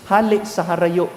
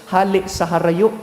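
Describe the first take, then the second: No difference in how they are said.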